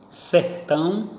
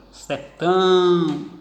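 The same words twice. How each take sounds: First: Said in the usual way. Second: Sertão called slowly, final TÃO held long; calling out. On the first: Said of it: "na última sílaba". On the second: Shown as a demonstration. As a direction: stretch the last syllable of Sertão in a call. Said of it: "tiveram a sua tonicidade". (chamando Sertão devagar, com o TÃO final alongado)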